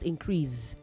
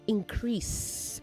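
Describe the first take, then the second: First: The final consonant is a buzzing 'z' sound. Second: The final consonant is a hissing 's' sound. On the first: The speaker calls it wrong. "not z" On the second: The speaker calls it right. "It is s"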